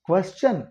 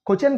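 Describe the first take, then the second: First: The word is said with a careful English pronunciation. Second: The word is said with a local-style pronunciation. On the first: The speaker calls it right. "క్వశ్చన్ ఇంకా బెటర్గా pronounce చేయొచ్చు" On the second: The speaker calls it wrong. "క్వశ్చన్ కాదు"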